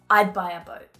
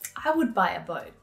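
First: I would is contracted to one syllable, I'd. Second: I would is said as two full words.

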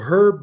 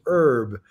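First: The word begins with an audible H sound. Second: The word begins without any H sound.

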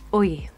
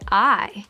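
First: The vowel sounds like 'oy' as in oil. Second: The vowel is a plain English 'eye' sound. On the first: "in an Irish accent, we say oi" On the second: "in English, we say I"

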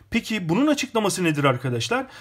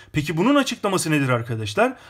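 The two takes are said the same way.

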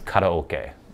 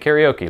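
First: It is pronounced with Japanese sounds and rhythm. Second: It is pronounced with American English sounds and rhythm. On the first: "the way it would actually be pronounced" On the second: "like we all do in America"

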